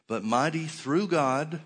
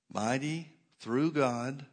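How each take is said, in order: First: "mighty through God" called out loud and slow, lifted high on "through"; slow emphatic preaching. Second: "mighty through God" said slow and softer, gently lifted on "through"; quieter slow repeat. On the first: Preacher drives the verse home to the congregation, loud and slow. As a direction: hammer "mighty through God" out slowly and loudly. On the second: Preacher echoes the verse to the congregation, softer and slow. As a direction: let "mighty through God" settle slowly and softly. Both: Shown as a demonstration. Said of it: "preacher repeats phrase for emphasis".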